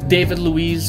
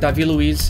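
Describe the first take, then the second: First: The name is pronounced the English way. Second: The name is pronounced the Brazilian Portuguese way.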